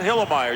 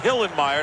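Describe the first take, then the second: First: The name is pronounced lazily, with a sound slurred. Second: The name is pronounced carefully, with every sound. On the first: The speaker calls it wrong. "not Hillemeyer. You can't be lazy in the pronunciation" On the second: The speaker calls it right. "You got to say Hillenmeyer"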